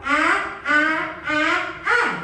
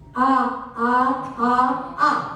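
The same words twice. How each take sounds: First: The voice is thin and pushed from the throat. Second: The voice is deep, full and resonant. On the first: The speaker calls it wrong. "Suara leher" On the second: The speaker calls it right. "suara diafragma keluarnya seperti ini"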